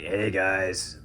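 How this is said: It is said in a drier put-on voice.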